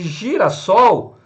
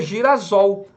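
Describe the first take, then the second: First: The middle consonant is an s sound. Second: The middle consonant is a z sound. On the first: The speaker calls it right. "dobra-se o S para manter a pronúncia" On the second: The speaker calls it wrong. "O S entre vogais tem som de Z"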